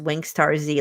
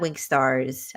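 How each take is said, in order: First: The name ends with a separate letter 'Z'. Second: The name ends with a short 's' sound. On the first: The speaker calls it right. "it's just Wingstar Z, like Dragon Ball Z" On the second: The speaker calls it wrong. "It's not Wingstars. I know people say it that way"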